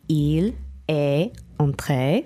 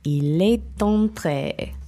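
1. Chaque mot est prononcé séparément, sans liaison. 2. Les mots sont enchaînés avec une liaison. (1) "Isolated would be" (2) "but together"

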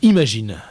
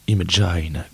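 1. Le mot se prononce avec des sons français. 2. Le mot se prononce avec des sons anglais.

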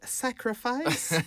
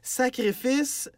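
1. Le mot se prononce à l'anglaise. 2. Le mot se prononce à la française.

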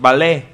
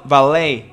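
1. Se dice con una pronunciación francesa. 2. Se dice con una pronunciación del inglés americano. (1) "Así se pronuncia los franceses" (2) "Así dicen al ballet"

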